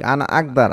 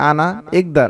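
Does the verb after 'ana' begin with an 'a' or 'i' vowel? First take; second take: a; i. First: The verb begins with an 'a' vowel. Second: The verb begins with an 'i' vowel. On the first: The speaker calls it right. "আনা আকদার হচ্ছে সঠিক" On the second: The speaker calls it wrong. "অনেকে বলে থাকে আনা ইকদার"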